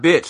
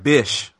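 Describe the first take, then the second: First: The word ends with a 'ch' sound. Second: The word ends with an 'sh' sound. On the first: The speaker calls it wrong. "No, not bitch" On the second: The speaker calls it right. "Like bish"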